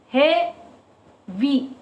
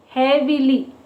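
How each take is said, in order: First: "Heavy" split into two beats with a long gap; broken into syllables. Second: Said in the usual way. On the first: Shown as a demonstration. Teacher counting syllables for children, "Heavy" pulled apart syllable by syllable. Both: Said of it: "Break this word into two".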